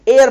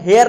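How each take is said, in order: First: The word begins with a vowel sound. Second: The word begins with an h sound. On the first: The speaker calls it right. "एयर पढ़ते हैं" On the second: The speaker calls it wrong. "हम हेयर नहीं"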